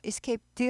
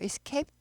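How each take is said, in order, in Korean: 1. 이 단어는 d 소리로 끝나요. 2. 이 단어는 t 소리로 끝나요. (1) "escape d 하지 않고" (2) "t 발음이 나요"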